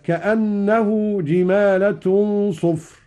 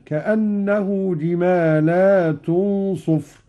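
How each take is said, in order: First: Slow, a bit higher, جمالة with a short la; jimalatun reading. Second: Slow, جمالات with a long la; jimalat reading. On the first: Teacher reciting the common reading. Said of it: "قوله تعالى". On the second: Teacher showing Qalun's plural with a long la. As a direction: stretch the la in جمالات. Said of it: "بمد اللام على الجمع هكذا". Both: Shown as a demonstration.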